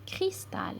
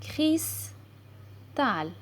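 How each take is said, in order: First: Said in the usual way. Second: "Cristal" as CRIS ... TAL, with a pause between; syllable by syllable. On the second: Shown as a demonstration. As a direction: sound out "Cristal" slowly in two parts, cris, tal. (« Cristal » lu syllabe par syllabe, cris – tal) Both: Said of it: "lire des mots avec les syllabes complexes".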